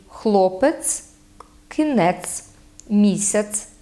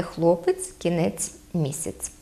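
First: Хлопець, кінець, місяць ending in hard ts; hard final ц. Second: Хлопець, кінець, місяць ending in soft ts; literary хлопець, кінець, місяць, palatalised last ц; soft final ц. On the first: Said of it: "теж твердий". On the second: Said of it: "а не". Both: Shown as a demonstration.

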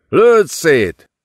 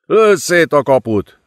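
First: Higher, louder urgent repeat; desperate yell. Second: High, forceful roared command; roaring order. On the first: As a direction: push the order even harder. (még kétségbeesettebb ordítás) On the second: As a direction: yell it through the chaos. (ordítva kiadott parancs) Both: A narrator's reading. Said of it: "ordította a fiatal időmérnök".

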